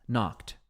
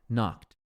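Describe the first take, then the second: Both takes have the same delivery.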